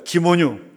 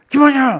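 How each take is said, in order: First: The name is called calmly, without anger. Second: The name is called angrily, with strong emotion.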